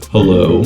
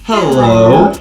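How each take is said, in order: First: The voice is shifted to a lower pitch. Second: The voice is shifted to a higher pitch. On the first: "bring it all the way down to pitch my voice lower" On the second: "it brings my voice to a higher pitch"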